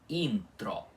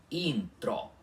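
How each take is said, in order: No difference in how they are said.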